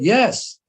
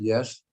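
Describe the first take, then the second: First: It is said with strong emphasis. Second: It is said with mild emphasis.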